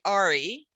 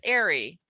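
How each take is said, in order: First: The ending is said with an 'ah' vowel. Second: The ending is said with an 'air' vowel. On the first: The speaker calls it wrong. "we don't say Ari" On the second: The speaker calls it right. "it's airy"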